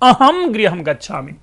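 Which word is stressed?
अहम. The word अहम carries the stress. I, not the others sitting here, am going home. "हमने सुर दे दिया एक"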